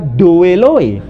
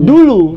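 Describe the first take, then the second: First: Each vowel pair is sounded out as 'o-e'. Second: Each vowel pair is said as a single 'u'. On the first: The speaker calls it wrong. "tidak dibaca doeloe" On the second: The speaker calls it right. "tapi dibaca dulu"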